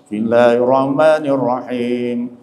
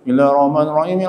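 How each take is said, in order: First: It is recited slowly and relaxed, slightly melodic. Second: It is recited hurriedly and messily. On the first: The speaker calls it right. "jangan tergesa-gesa, santai. Kalau bisa berlagu sedikit lah" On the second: The speaker calls it wrong. "buru-buru tuh kacau itu bacanya tuh"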